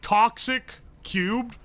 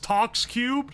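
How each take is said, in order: First: The first part is said with two syllables, 'toxic'. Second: The first part is said with one syllable, 'tox'. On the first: The speaker calls it wrong. "I always pronounce toxic cubed like toxic cubed" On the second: The speaker calls it right. "but it's tox cubed"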